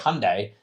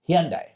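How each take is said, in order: First: It is said to rhyme with Sunday. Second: It is said not rhyming with Sunday. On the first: This is the form Koreans do not use. The speaker calls it wrong. "don't say Hyundai" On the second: This is the form Koreans use. The speaker calls it right. "they say Hyundai"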